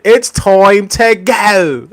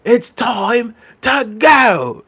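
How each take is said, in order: First: Slow, high, drawn-out imitation; hammed-up catchphrase voice, much higher; mock catchphrase. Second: Slow, high, drawn-out imitation again; hammed-up catchphrase voice, much higher; mock catchphrase. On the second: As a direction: stretch every word high and slow. Repeating the catchphrase.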